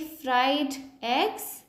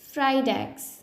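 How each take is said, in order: First: The two words are said separately. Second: The final D links into the next vowel. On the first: The speaker calls it wrong. "I don't need to say" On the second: The speaker calls it right. "I am connecting the consonant sound with the vowel sound"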